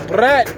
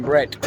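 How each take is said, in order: First: High, loud shout of Brett; calling the dog. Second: Said in the usual way. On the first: Shown as a demonstration. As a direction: yell Brett! across the paddock. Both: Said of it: "I've been calling him Brett".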